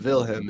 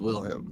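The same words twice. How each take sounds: First: The name does not start with a W sound. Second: The name starts with a W sound. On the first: The speaker calls it wrong. "so it's not Wilhelm" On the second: The speaker calls it right. "it is with a W"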